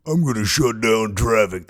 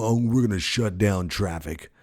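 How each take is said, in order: First: Mean, raspy voice, a bit louder; raspy mean threat; Mother Earth. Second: Said in the usual way. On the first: Acted. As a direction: growl it out like a fed-up planet. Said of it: "That's her mean voice". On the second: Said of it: "so she sounds like this".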